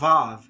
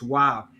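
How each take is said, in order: First: The word begins with a V sound. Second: The word begins with a W sound. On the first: The speaker calls it wrong. "they often pronounce it like a V sound, but it's not the V sound" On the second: The speaker calls it right. "It's originally in the ancient Hebrew world pronounced W"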